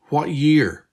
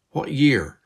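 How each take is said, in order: First: Louder, pressing question; girl demanding the year from her double, insistent; insistent repeat. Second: Insistent. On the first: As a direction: press hard for the answer. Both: Acted. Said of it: "Beth repeated insistently".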